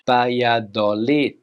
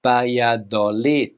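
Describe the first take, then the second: First: It is said with Spanish pronunciation. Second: The same.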